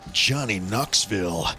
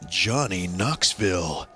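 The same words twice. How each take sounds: First: It is said in an intense, hyped-up tone. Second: It is said in a serious, mysterious tone. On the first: It sounds like the title of an action movie. "then it's an action movie" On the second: It sounds like the title of a drama or mystery. "it's like a little more serious, maybe a drama, maybe a mystery type thing"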